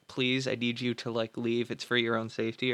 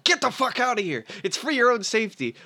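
First: Softer, polite imagined request; lightly voiced kind asking, not angry; gentle plea. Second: A touch of angry, higher and harsher; husband snapping at his wife to get out, mock angry order; rough retold order. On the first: Imagined kinder husband gently asks his wife to leave, soft plea. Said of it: "it never being like". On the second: The husband barks at his wife to leave, mildly acted rage. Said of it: "doesn't say this in any nice way".

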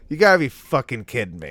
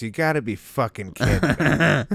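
First: Loud, furious outburst. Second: Louder exasperated complaint. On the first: Acted. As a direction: blow up at the drive-thru guy. Repeating the outburst. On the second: Retold or imitated. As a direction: vent like you've been wronged. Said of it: "the correct word is".

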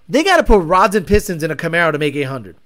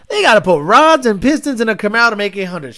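First: Said in the usual way. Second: They gotta put rods and pistons said again with more weight; louder emphatic repeat. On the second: Shown as a demonstration. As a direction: land the line harder. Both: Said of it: "repeated line".

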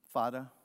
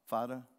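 First: Fada said with a plain f and a d for th; Fada, the way the Maasai say father; the Maasai word Fada; Maasai pronunciation. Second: Fada, f-a-d-a, no th sound; Maasai pronunciation. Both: Shown as a demonstration. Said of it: "That's how they say father".

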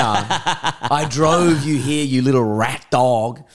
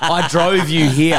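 First: Very slow, stretched, still laughing; mock-outraged slow laughing repeat; drawn-out repeat. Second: Louder, slowed, laughing through the words; half-laughing mock outrage; laughing retort. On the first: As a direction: drag every word out for effect. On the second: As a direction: laugh out an indignant comeback. Laughing indignant retort to friend.

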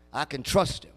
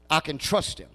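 No difference in how they are said.

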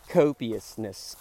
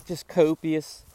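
First: Copiousness drawn out slowly, every syllable savored; savoring word. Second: Said in the usual way. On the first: Shown as a demonstration. Vlogger relishing his favourite word, drawn out slowly. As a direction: stretch copiousness out lovingly. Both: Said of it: "can you say copious with me".

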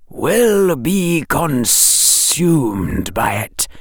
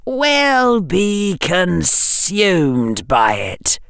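First: Very slow, hissing snake voice; drawn-out serpent hiss; slow hypnotic serpent hiss. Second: Slow, cold, high whisper; icy drawn-out whisper; chill whisper. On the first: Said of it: "The snake hissed". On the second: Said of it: "whispered the chill voice". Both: A narrator's reading.

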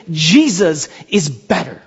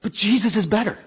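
First: "Jesus is better" drawn out slowly, leaning on "Jesus"; slow emphatic proclamation. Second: "Jesus is better" said softer, with a gentle rise on "Jesus"; soft quiet restatement. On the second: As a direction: drop your voice and say "Jesus is better" softly. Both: Shown as a demonstration.

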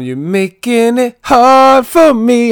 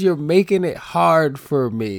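First: Loud, high, slow sung hook; sung, belt it out high and drawn out; singing a lyric. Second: "hard" stressed in slow, spelled-out speech; pointed emphasis. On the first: Real, not acted. Singing the song's lyric to the co-host, belted. Sings the lyric, then explains it. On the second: Shown as a demonstration. Showing the co-host what the lyric really says, pointed emphasis. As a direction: say it slowly and pointedly, leaning on "hard".

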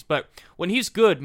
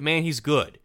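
First: Good punched loud and high; emphatic good. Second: Said in the usual way. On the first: Real, not acted. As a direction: lean hard on good. Praising pitcher emphatically.

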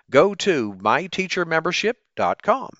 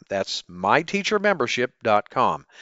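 First: Upbeat pitch, rising at the end; chipper ad pitch. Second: Said in the usual way. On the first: Shown as a demonstration. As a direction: sell the address brightly.

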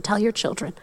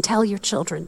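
First: Put-on soft "tell your children" with YOUR leaned on; stress on YOUR. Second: Put-on soft "Tell your children" with TELL leaned on and falling; stress on TELL. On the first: Preacher repeating the verse to the church, weight on "your". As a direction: quietly press the word "your". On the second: Preacher quietly urging the church, weight on "Tell". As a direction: quietly press the word "Tell". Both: Shown as a demonstration. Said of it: "I love the emphasis it keeps saying".

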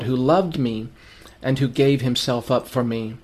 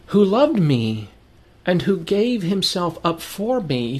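First: Said in the usual way. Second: Slow, higher, heartfelt repeat; softened, grateful reread; tender, heartfelt. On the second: Acted. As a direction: linger on it as a personal gift. Verse repeated, slowed, moved.

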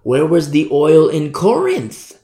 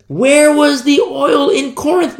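First: Said in the usual way. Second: Much higher, louder and slow, pressing the question; WHERE hit high and hard; rising preacher cry. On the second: Acted. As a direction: call it out to the congregation. Preacher repeats rhetorical question.

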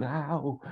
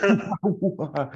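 First: High yelp. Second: Sharp, high, loud "Ow!"; loud yelp of pain. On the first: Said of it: "he just goes". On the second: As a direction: yelp as if burned. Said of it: "who just goes". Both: Retold or imitated.

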